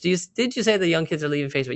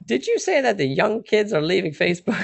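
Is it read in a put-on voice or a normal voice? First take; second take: normal; put-on. First: It is read in a normal voice. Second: It is read in a put-on voice.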